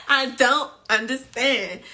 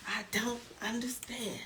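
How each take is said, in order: First: Louder, emphatic first statement. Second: Very soft whispered echo; fading to whisper. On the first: Host baffled by the players, emphatic and louder. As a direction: say it out firmly at full voice. Repeated mantra that fades away. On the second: Host baffled by the players, whispered repeat. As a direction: let it die away into a whisper. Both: Pretend.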